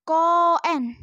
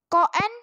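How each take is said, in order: First: Koen with a long, held o and a falling end; long vowel reading. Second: Said in the usual way. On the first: Shown as a demonstration. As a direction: draw out the o in koen, teacher style. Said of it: "berarti dibaca". (koen dengan o dibaca panjang) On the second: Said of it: "itu dibaca panjang".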